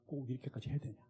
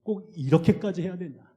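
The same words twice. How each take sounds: First: Very soft, near-whispered; weary question. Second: "이렇게까지" stressed, normal level, falling end; pressing question. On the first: Pastor asking Mark on the climb, soft weary question. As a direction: ask it drained of strength. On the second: Pastor pressing Mark on the mountain, firm stressed question. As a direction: demand an answer firmly. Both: Retold or imitated. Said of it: "이렇게 물었어요".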